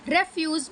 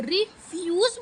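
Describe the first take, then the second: First: refuse as REF-yooz, first syllable stressed; noun stress. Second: refuse as ri-FYOOZ, weight on fuse; stress on second syllable. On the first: Teacher showing refuse as noun, first-syllable stress on refuse. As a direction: hit the opening REF of refuse. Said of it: "noun बन जाता है". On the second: Teacher showing refuse as verb, second-syllable stress on refuse. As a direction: split off ri, then lean on FYOOZ in refuse. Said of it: "fuse पे हम ज़्यादा stress". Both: Shown as a demonstration.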